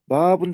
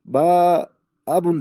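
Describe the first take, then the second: First: "Баабун" as one word with a long a; joined "Баабун", first vowel lengthened; correct joined reading. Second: "Баабун" split into long "baa" and "abun"; imitating a learner's broken, drawn-out "Баабун"; mistaken re-reading. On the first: Shown as a demonstration. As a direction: say "Баабун" without a break. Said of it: "жазылып турса". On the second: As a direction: stretch the a of "Баабун", pause, restart on a vowel. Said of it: "алар мынтип айтышат дейт".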